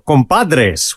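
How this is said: The word is said with Spanish pronunciation.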